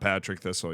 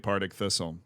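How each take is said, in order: First: The name begins with 'pat', with 'trick' after. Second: The name begins with 'part', with the r sound. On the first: The speaker calls it wrong. "It's not Patrick Thistle" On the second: The speaker calls it right. "it is actually Partick Thistle"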